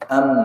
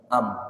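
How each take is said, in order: First: The lips touch together lightly on the m. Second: The lips press together firmly on the m. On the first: "tapi ringan" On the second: "am itu kan berat, nempel banget"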